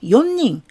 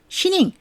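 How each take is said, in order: First: The word begins with yo plus n. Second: The word begins with a shi sound. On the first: "맘대로 연닝, 시닝 이렇게 하시면 안 되십니다" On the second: "맘대로 연닝, 시닝 이렇게 하시면 안 되십니다"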